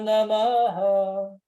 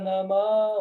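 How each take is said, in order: First: The final h is followed by an echoing vowel. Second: The final h is silent, with no echo vowel. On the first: "Aqui ele ecoa" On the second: "Aí aqui ele virou mudo"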